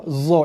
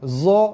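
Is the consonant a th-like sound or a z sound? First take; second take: z sound; z sound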